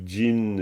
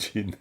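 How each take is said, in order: First: The first consonant is heavy, as in the drink. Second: The first consonant is lighter and softer. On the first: The speaker calls it wrong. "c'est pas non plus gin comme du gin" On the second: The speaker calls it right. "c'est peut-être un peu plus léger comme gin"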